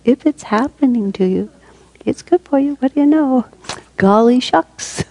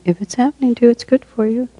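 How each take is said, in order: First: Hammed-up, high singsong with mock wonder; playful saying. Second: High, lilting playful delivery; playful saying. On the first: Teacher repeats a favorite saying with gee-whiz delight, hammed-up and playful. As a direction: pitch it way up, drawing out the last words. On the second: Teacher offers a favorite saying to the group, playfully. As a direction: say it lightly in a raised voice. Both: Shown as a demonstration. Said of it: "I love to say it like that".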